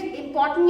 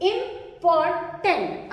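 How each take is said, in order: First: Said in the usual way. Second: "इंपॉर्टेंट" slowly, as इं, पॉर, टेंट; cut into syllables. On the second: Shown as a demonstration. Teacher shows how to split big words, "इंपॉर्टेंट" slow and segmented. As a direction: chop "इंपॉर्टेंट" into small separate pieces. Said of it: "छोटे टुकड़ों में काटकर".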